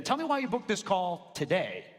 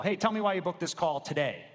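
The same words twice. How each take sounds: First: Today pressed for urgency; stress on today. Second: Today leaned on to build urgency; stress on today. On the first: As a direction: make today sound urgent. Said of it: "Everyone notice the difference there?". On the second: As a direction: push the word today as urgent. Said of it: "emphasizing the word today". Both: Shown as a demonstration.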